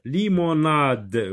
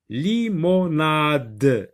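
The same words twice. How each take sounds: First: Said in the usual way. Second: Limonade stretched very slowly, li-mo-nade; teacher stretching Limonade so the d is heard; drawn-out model word. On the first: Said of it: "Oui, très bien". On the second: Shown as a demonstration. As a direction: sound out Limonade syllable by syllable.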